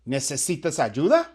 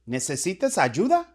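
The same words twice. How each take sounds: The two takes are said the same way.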